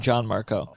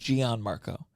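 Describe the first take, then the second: First: The first name is said in the Italian way. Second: The first name is said in an anglicized way. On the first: This is how an Italian would say it. The speaker calls it right. "I just liked it more than John Marco" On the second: This is the family's long-used version. The speaker calls it wrong. "my dad for my whole life pronounced it Gian Marco"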